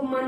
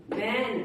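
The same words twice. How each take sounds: First: मन with a short 'uh' vowel; wrong reading. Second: Said in the usual way. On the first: Shown as a demonstration. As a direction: misread man as मन. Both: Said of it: "इसको मन नहीं बोलेंगे".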